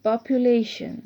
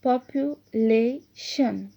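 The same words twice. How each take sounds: First: Said in the usual way. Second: "population" drawn out slowly, with gaps between the syllables. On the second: Shown as a demonstration. Teacher showing syllable division to pupils, "population" broken up syllable by syllable. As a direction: split "population" slowly into popu, la, tion. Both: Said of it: "syllable division को देखें".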